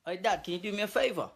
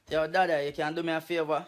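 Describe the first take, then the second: First: Put-on British accent. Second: Jamaican Patois. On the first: Skit's English-style version of request. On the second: Acted. Same request replayed in Patois.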